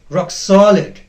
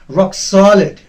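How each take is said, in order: Both takes have the same delivery.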